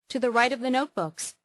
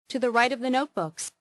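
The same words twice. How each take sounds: No difference in how they are said.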